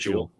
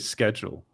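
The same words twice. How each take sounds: First: It is said the British way. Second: It is said the American way.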